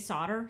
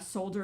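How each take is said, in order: First: The word is said in an American way. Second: The word is said in a British way. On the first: This is how it is said locally. "Here we tend to say solder" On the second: This is how it is said in the UK. "solder if you are overseas in the U K"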